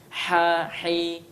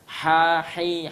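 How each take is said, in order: No difference in how they are said.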